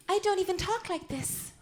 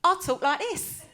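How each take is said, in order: First: High-pitched put-on starlet voice; lifted, feminine impersonator's voice; Marilyn Monroe. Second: Loud, broad London voice; hammed-up London accent, louder and higher; exaggerated London accent. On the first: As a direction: show off the screen-siren voice. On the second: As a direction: drop the act into blunt London speech. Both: Shown as a demonstration.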